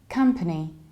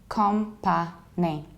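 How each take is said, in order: First: The first syllable sounds like 'come', reduced middle vowel. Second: The first syllable sounds like 'com', unreduced vowels. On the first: The speaker calls it right. "we don't say com, but we say come" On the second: The speaker calls it wrong. "what I mostly hear is company"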